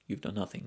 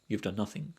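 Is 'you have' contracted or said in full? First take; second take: contracted; contracted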